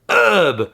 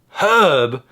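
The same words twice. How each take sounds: First: The word starts with a vowel sound. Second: The word starts with an h sound. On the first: The speaker calls it wrong. "and not herb" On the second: The speaker calls it right. "herb is said herb"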